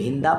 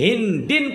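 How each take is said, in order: First: The name ends with an 'a' sound. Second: The name ends with an 'in' sound. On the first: The name is treated as not fully declinable. "गैर मुनसरिफ पढ़ेंगे तो हिंदा पढ़ेंगे" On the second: The name is treated as fully declinable. "मुनसरिफ पढ़ेंगे तो हिंदिन पढ़ेंगे"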